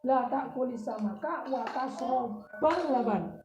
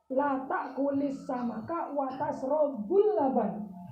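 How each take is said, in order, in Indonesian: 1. Kata kerjanya berakhir dengan vokal a. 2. Kata kerjanya berakhir dengan vokal u. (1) "dibaca fathah" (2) "harokatinya itu doma"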